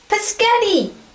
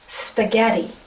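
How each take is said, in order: First: The word begins with a p sound. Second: The word begins with an sp sound. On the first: The speaker calls it wrong. "Right, pescetti" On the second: The speaker calls it right. "Honey, it's spaghetti"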